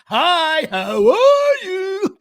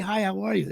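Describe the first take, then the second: First: It is delivered in an exaggerated, overacted way. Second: It is delivered plainly, like a normal greeting.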